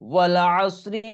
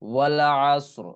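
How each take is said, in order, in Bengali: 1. শব্দটি হ্রস্ব 'ই' স্বরধ্বনি দিয়ে শেষ হয়। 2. শব্দটি ব্যঞ্জনধ্বনিতে শেষ হয়, স্বরধ্বনি বাদ যায়।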